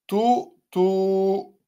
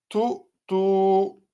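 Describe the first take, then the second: No difference in how they are said.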